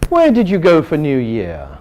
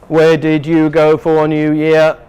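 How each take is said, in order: First: The voice falls at the end of the question. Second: The voice stays flat like a robot. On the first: The speaker calls it right. "But if we are not robots" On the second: The speaker calls it wrong. "because I am a robot"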